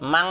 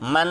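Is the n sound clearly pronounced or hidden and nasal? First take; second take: nasal; clear. First: The n is hidden and nasal, like ng. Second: The n is pronounced fully and clearly. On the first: The speaker calls it right. "सही है" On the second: The speaker calls it wrong. "गलत हो रहा है"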